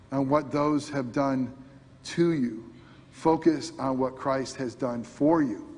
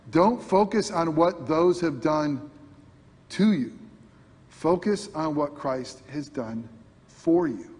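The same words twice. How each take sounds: First: Said in the usual way. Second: Slow, each word weighted for the quote; slow emphatic repeat. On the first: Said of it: "My beloved wife gave me that quote". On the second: Shown as a demonstration. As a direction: land the quote deliberately, slowly. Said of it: "That was good, wasn't it?".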